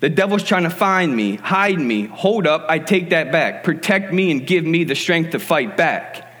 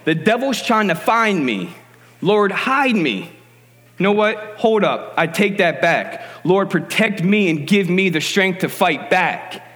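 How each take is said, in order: First: It is said fast. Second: It is said slowly.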